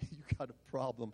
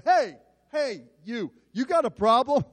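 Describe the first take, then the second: First: Much softer, lower replay of the challenge; quiet self-mocking echo. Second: Higher, louder confrontation; loud challenge. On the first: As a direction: mutter it back at yourself, embarrassed. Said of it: "Stupid, stupid". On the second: Retold or imitated. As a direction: square up and call him out. Pastor confronts the college boy.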